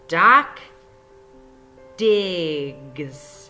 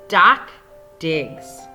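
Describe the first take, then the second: First: The last word is broken into separate sounds. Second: Both words are read smoothly at normal pace. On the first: "I had to chop and blend this word" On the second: "in my normal voice"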